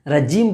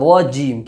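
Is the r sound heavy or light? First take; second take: light; heavy. First: The r is thin and light. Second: The r is full and heavy. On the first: The speaker calls it wrong. "रजीम बोलेंगे तो गलत हो जाएगा" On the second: The speaker calls it right. "यहाँ पुर पढ़ना है"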